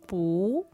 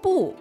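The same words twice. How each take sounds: First: The pitch starts mid and rises. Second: The pitch starts high and falls sharply. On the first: "they'll make it a second tone instead, the rising tone" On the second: "That was pronounced in the fourth tone"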